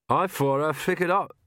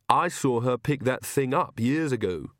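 First: Muffled words round a safety pin; mouth full of pins. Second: Said in the usual way. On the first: Acted. Magrat speaking with a safety pin in her mouth, muffled. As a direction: talk with a pin between the lips.

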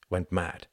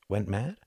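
First: "went mad" with the pitch falling at the end; falling statement. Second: "went mad" rising at the end as a question; questioning echo. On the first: Tom states his view to Hart, "went mad" falling. Statement later echoed as a question. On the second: Hart queries Tom's view, "went mad" rising. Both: Acted.

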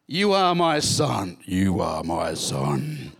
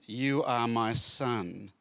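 First: Slow, loud, then much lower God voice; hammed-up voice from heaven; booming voice of God. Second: Slow, steady reading of the verse; measured Bible-reading tone; scripture reading. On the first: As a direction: boom it out from the heavens. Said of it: "Just imagine this booming voice". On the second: Acted. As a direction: read it as the quoted verse. Read within the scripture passage.

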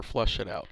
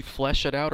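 First: "flush" with an uh vowel, as in brush. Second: "flesh" with a short E, as in mesh; flesh vowel. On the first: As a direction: say flush with a short U. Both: Shown as a demonstration. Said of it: "flesh it out or flush it out".

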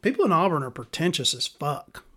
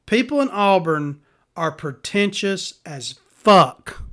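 First: Said in the usual way. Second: Slow, loud announcer read; public service announcement. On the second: Shown as a demonstration. Announcing to the public in a slow announcer voice. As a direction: proclaim it like an official PSA. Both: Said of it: "I'm gonna put out a public service announcement".

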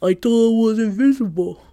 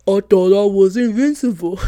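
First: Lightly put-on dopey teen voice; brother's voice. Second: Laughing put-on dopey teen voice, louder; mock her brother with a goofy laugh in it; brother's voice. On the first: Sister repeating her brother's line in a light imitation. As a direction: mimic her brother once more, a bit louder. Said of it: "That's how he sounds". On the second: Sister mocking her brother's excuse in his voice. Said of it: "let me do my brother's voice".

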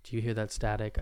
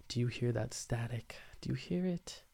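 First: Said in the usual way. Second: Hushed whisper, listening hard. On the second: Real, not acted. Host asking listeners about the static, whispering. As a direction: whisper it as if straining to hear a sound.

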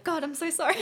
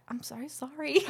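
First: Higher and louder, giggling the apology; laughing apology. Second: Apology said through a laugh. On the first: Apologizing for random thoughts popping up, with high laughter. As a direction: gush sorry through a laugh. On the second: Apologizing to the therapist, with a giggle. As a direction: say sorry while giggling. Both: Retold or imitated.

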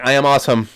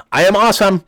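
First: Raised voice, higher and louder, held back; half-committed shout; first, restrained yell. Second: High, loud reluctant shout; forced shout, pitched right up; louder yell. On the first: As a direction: yell it but hold back, embarrassed. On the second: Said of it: "Louder, my man". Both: Retold or imitated.

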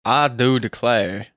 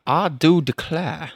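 First: "declare" ending on a clear R; put-on "declare" with the final R pronounced; R sounded. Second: Slow drawl, "declare" ending in an open vowel without R; R dropped. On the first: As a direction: say "declare" with a hard R at the end. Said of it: "you did an R". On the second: Acted. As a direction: drop the final R of "declare". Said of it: "rather than a, uh".

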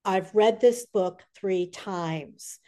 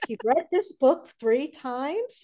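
First: Retold earnest declaration. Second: High, drawn-out disbelieving question; slow, rising astonishment; incredulous. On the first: Retold fan's slow declaration. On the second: Retold or imitated. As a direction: echo it back in amazed disbelief. Retold disbelief at fan's claim.

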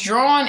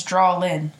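First: "drawn" said as a single syllable; drawn as one syllable. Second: "drawlin" said in two beats, with an L; drawlin with two syllables. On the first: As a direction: say "drawn" in one beat, no L sound. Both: Shown as a demonstration. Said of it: "It's two different".

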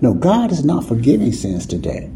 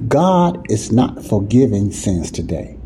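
First: Said in the usual way. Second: Each word of "God is not forgiving sins today" laid down slowly; slow down and weigh every word; slow, deliberate. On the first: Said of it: "Say what?". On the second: Shown as a demonstration. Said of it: "in a nutshell".

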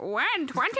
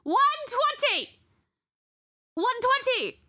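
First: Lightly voiced puppet saying "One twenty", pitched up; talking money puppet. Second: Shouting. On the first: Teller working the money puppet show, mock puppet voice. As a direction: make the banknote talk, rising like a question. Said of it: "What if I make it talk?". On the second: Retold or imitated. Bank customer yelling to everyone in the bank, imitated shouting. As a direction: holler it, imitating a frustrated customer. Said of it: "Shouting and pointing at me".

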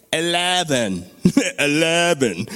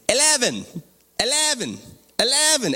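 First: Irishman attempting an American accent; mock American accent. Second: High-pitched fake Irish, each word swooping down; mock Irish accent. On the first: Irish men trying the voice elevator, mock American accent. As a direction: put on a clumsy American "Eleven". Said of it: "You gotta say it like an American". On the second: Irish men telling the elevator level eleven, mock Irish accent. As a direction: repeat it as a mock Irishman commanding a machine. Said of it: "There's these Irish men in an elevator".

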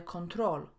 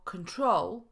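First: Control with a full Polish o in con; wrong full o. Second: Control with a weak first syllable; schwa in control. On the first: Teacher showing the mistake, control with full o. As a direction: say control as spelt, clear con. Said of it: "a nie". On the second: Teacher giving the English for kontrolować, control with schwa. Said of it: "Nie wymawiamy o". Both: Shown as a demonstration.

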